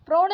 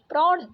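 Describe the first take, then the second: First: प्रौढ़ said "prorh", closed o; wrong vowel. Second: Said in the usual way. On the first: Shown as a demonstration. Teacher rejecting a spelling, प्रौढ़ with plain o. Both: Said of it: "प्रौढ़ नहीं".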